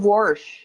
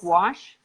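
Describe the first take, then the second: First: It is said with an R sound inside. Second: It is said without any R sound. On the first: The speaker calls it wrong. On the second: The speaker calls it right.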